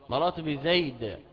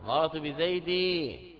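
First: The last word ends on a bare consonant. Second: The last word ends on a long i vowel. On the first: "منع من ظهور اشتغال المحل بسكون الوقف" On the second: "بإبدال التنوين من جنس حركة ما قبله"

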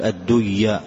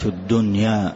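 First: The n sound merges into the following y. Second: The n sound is kept clear before the y. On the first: The speaker calls it wrong. "ما تقول الدنيا" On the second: The speaker calls it right. "لا تدغم"

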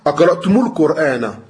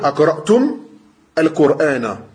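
First: A 'u' vowel links the first word to the next. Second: The first word stops, with no vowel added after it. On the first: "tu enchaînes ... Tu mets une domme" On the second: "Si tu t'arrêtes"

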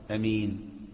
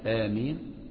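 First: The first vowel is kept short. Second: The first vowel is drawn out long. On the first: "وفيها القصر" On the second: "بالمد"

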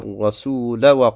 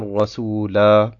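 First: The final vowel is short, running on. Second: The final vowel is long, with a stop. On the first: The reading continues past the word. "Beim Weiterlesen fällt dieses Alif von Ar-Rasula weg" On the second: The reader pauses on the word. "Dort heißt es am Ende"

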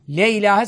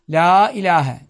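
First: The first word has an 'e' vowel. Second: The first word has a long 'a' vowel. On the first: The speaker calls it wrong. "sakın demeyin. Mana bozulur" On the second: The speaker calls it right. "Ama la'yı uzatacaksınız"

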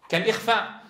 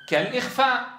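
No difference in how they are said.

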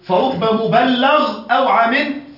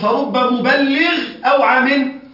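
First: The word ends with the vowel 'a' before gh. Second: The word ends with the vowel 'i' before gh. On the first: The one who receives the report may understand better. The speaker calls it right. "هكذا الحديث" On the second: The one who passes it on may understand better than himself. The speaker calls it wrong. "تجده يقول"

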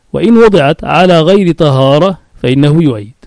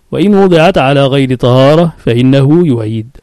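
The two takes are said the same way.

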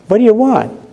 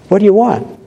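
The two takes are said the same way.

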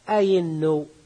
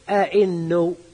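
First: The second hamza is replaced by a y sound. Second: Both hamzas are pronounced as glottal stops. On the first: This is the common, lightened form. "فخففت بإبدال الثانية من جنس حركتها" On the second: This is the rare, fully realized form. "ينطق بهمزتين"

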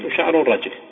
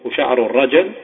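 First: The j sound is followed by no vowel. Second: The j sound is followed by an a vowel. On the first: "وسكونها" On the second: "بفتحها"

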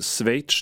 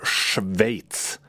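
First: The opening sh-plus-v cluster is simplified. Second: The opening has both a sh sound and v. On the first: The speaker calls it wrong. "Så därför säger många Schweiz. Men det heter inte Schweiz" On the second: The speaker calls it right. "det heter Schweiz"

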